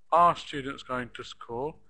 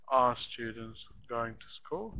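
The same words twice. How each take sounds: First: Are students going to school, Are louder at the front; stress on Are. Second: Are students going to school with Are lifted first; stress on Are. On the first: Teacher asks the question with Are stressed. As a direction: hit Are at the start. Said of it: "this is a good point". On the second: Teacher stresses the auxiliary at the start. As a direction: open strongly on Are. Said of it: "we should stress it". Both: Shown as a demonstration.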